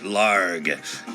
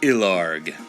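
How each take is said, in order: First: The name starts directly with an L sound. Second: The name starts with a vowel before the L. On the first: The speaker calls it right. "I pronounce it Larg" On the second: The speaker calls it wrong. "not Ilarg"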